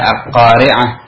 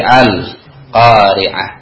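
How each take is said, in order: First: The l of the article is not heard. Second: The l of the article is clearly heard. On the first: The speaker calls it wrong. "Kita tidak membaca al-qari'ah" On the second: The speaker calls it right. "tapi al-qari'ah"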